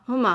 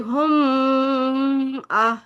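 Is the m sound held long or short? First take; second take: short; long. First: The m sound is short and not held. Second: The m sound is held long and stretched. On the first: The speaker calls it right. "हम सिर्फ नॉर्मल पढ़ते हैं" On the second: The speaker calls it wrong. "लंबा नहीं करते कि हम आ, ऐसे नहीं पढ़ते"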